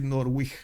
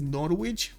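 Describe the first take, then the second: First: Norwich as "NOR-wikh", W sounded; Norwich with soft ending. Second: Norwich said "NOR-witch", W sounded. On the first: Streamer offering an alternative reading, Norwich as "NOR-wikh". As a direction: end Norwich on a soft "kh" instead of "tch". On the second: Streamer puzzling over the city name, Norwich as "NOR-witch". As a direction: end Norwich on a clear "tch". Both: Shown as a demonstration. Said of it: "How do you pronounce this?".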